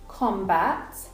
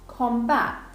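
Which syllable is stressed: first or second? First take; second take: first; second. First: The stress is on the first syllable. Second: The stress is on the second syllable. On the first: It is used as a noun. "usually the first syllable in nouns is the strong one" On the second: It is used as a verb. "second syllable in verbs is the strong one"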